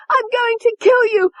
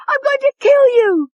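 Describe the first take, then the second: First: Very high, loud shriek; murderous scream. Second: Even higher, loudest shriek; louder murderous scream. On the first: Tony lunging at David with the letter opener, screaming. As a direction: scream it as you lunge. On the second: Tony lunging at David, screaming at full force. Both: A narrator's reading.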